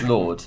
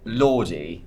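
First: The name is one syllable, like lord. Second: The name ends in an extra ee syllable. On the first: The speaker calls it right. "it's pronounced Lord" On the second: The speaker calls it wrong. "it's not pronounced Lordy"

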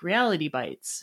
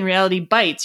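First: The stress falls on the word reality. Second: The stress falls on the word bites. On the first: Small pieces of reality; bites is a noun. The speaker calls it right. "you should be saying like Reality Bites" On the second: Reality hurts; bites is a verb. The speaker calls it wrong. "instead of saying Reality Bites"

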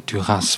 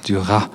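First: The final S sound is pronounced. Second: The final S sound is silent. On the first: The speaker calls it wrong. "some say Duras" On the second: The speaker calls it right. "you don't pronounce the S"

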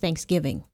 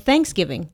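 First: The stress is on the second part, giving. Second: The stress is on the first part, thanks. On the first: "my natural way to say it is Thanksgiving. The emphasis on giving" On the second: "Or Thanksgiving, depending on, you know, how you say it"

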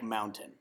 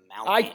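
First: The middle T sound is clearly pronounced. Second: The middle T sound is left silent. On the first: The speaker calls it wrong. "Don't say the word mountain like mountain" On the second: The speaker calls it right. "The T is silent. It's mountain"

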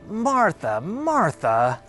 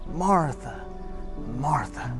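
First: The voice sounds disappointed and exasperated. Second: The voice sounds warm and caring. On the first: The speaker is let down by her. The speaker calls it wrong. "as if Jesus was a little bit disappointed with her" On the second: The speaker cares for her. The speaker calls it right. "what if we read that in a tone of love instead?"

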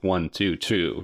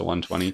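First: The number is read as three separate digits. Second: The number is read as one whole number. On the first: The speaker calls it right. "I feel like the title should be pronounced like 122" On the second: The speaker calls it wrong. "as opposed to 122"

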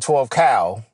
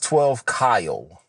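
First: The name is said with a short 'a' vowel. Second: The name is said with a long 'i' vowel. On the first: "I know I say 12 Cal" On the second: "But technically it's 12 Kyle"

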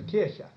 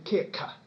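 First: The middle consonant is a throaty guttural sound. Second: The middle consonant is a hard k sound. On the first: The speaker calls it right. "instead of" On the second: The speaker calls it wrong. "he'd have to say"

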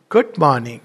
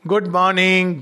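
First: It is said warmly, with heartfelt feeling. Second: It is said casually, without feeling.

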